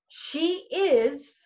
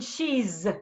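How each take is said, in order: First: It is said as two full words. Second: It is said as one contracted word. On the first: It is the full, correct form. "She is, is has a different sound than she's" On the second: It is how most Americans say it. "The contractions has the z sound in it"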